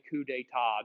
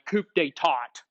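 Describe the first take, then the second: First: The final consonants are left silent. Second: The final consonants are clearly pronounced. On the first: The speaker calls it right. "You do not pronounce the final consonants in French words" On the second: The speaker calls it wrong. "Sound like a hick saying it that way"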